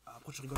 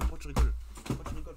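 First: Said in the usual way. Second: Shouted, much louder, teasing; sudden loud yell. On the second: Real, not acted. Yelling at a friend who keeps laughing, loud.

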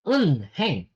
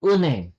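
First: "Unheng" in parts, with an audible h; spelling pronunciation. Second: "uneng" with the h dropped; correct linked pronunciation. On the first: Korean teacher repeating the spelled word, spelling pronunciation. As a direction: say "Unheng" as written, un-heng. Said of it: "But that is pronounced as uneng". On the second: Korean teacher showing the silent H, linked pronunciation. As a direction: slide n into the vowel in "uneng". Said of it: "that is pronounced as". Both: Shown as a demonstration.

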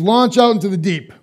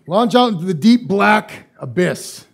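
First: Said in the usual way. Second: Ominous slow build. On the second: Retold or imitated. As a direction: stretch it out like something lurking below. Deep lakes creep him out.

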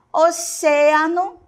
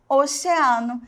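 First: Oceano slow and high, stressed on CE; Spanish pronunciation. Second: Oceano the Portuguese way, stressed on A; Portuguese pronunciation. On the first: Teacher shows the Spanish word, Oceano with stretched CE. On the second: Teacher gives the Portuguese counterpart, oceano with stressed A. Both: Shown as a demonstration. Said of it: "a sílaba tônica está onde?".

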